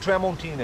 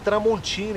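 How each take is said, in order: First: It is pronounced with an American English accent. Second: It is pronounced with a Brazilian Portuguese accent. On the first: The speaker is a typical foreigner. "e não" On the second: The speaker knows Brazil. "igual a gente fala no Brasil"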